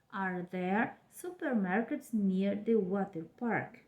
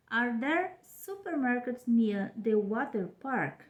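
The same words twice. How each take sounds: First: Slow repeat of Are there supermarkets near the water park with the tune falling at the end; second slow model reading of Are there supermarkets near the water park; question intonation. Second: Slow model question Are there supermarkets near the water park, stressing there; careful teacher reading of Are there supermarkets near the water park; question intonation. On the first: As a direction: say it slowly again and let it fall. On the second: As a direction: read it out slowly as a model question. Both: Shown as a demonstration. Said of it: "olha a entonação".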